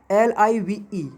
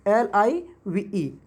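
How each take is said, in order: First: एल आई वी ई spelled a little slowly; name each letter of एल आई वी ई evenly; spelling out letters. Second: एल आई वी ई drawn out letter by letter, very slowly; very slow spelling. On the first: Teacher spelling live for students, a little slow. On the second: Teacher repeating the spelling for students, very slow. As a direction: stretch every letter of एल आई वी ई. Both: Shown as a demonstration. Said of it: "एक होता है एल आई वी ई".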